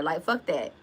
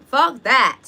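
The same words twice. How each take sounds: First: Said in the usual way. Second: "Fuck that" punched much louder, higher; louder emphatic repeat. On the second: Real, not acted. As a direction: hit "Fuck" hard and loud the second time. Repeats dismissal, second time louder.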